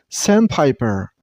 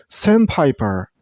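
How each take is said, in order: The two takes are said the same way.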